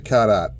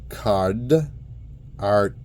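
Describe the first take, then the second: First: The r sounds are dropped, Boston style. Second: The r sounds are clearly pronounced. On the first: The speaker calls it wrong. "I'm not going to say card art" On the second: The speaker calls it right. "So it's card art"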